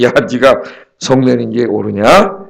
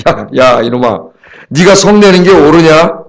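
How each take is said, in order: First: Low, slow, forbearing divine question; God gently accepting. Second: Slow, mildly stern divine rebuke; God chiding. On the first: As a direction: ask slowly and low, as a patient God. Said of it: "하나님께서 다 받아주세요". (하나님이 다 받아주듯 낮고 느린 말투) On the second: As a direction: chide slowly, like God with a sulking servant. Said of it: "하나님 뭐 화를 내고 막 싫어하니까". (하나님이 가볍게 꾸짖듯 느린 말투) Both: Retold or imitated.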